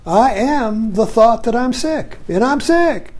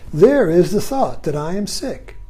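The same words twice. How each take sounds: First: Slower, higher, a touch of mock misery; mock self-pity. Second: Said in the usual way. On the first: Shown as a demonstration. Teacher voicing the identified self, mock self-pity. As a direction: play the sick self, half-hearted woe. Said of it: "But if I'm up here". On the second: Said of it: "Isn't that interesting?".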